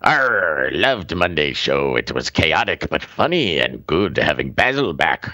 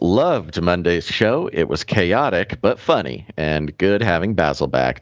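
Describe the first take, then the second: First: It is read in a Captain Redbeard pirate voice. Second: It is read in his normal voice.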